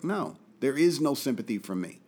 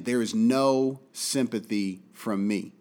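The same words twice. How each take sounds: First: Said in the usual way. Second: There is no sympathy from me, slow with no stressed; slow emphatic restatement; slow deliberate repeat. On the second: Shown as a demonstration. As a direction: spell it out word by word. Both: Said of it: "I'll say it again".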